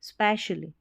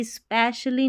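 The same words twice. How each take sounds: First: "specially" as spesh-uh-lee, no leading ee; light first sound. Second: "especially" with a heavy long ee at the start; over-pressed first E. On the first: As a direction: start "specially" straight on sp. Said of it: "ऐसे भी नहीं". ("specially" में शुरू की ई बिना ज़ोर) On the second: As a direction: lean on the ee of "especially". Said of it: "ज़ोर देके नहीं पढ़ेंगे". ("especially" में शुरू की ई पर ज़ोर) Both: Shown as a demonstration.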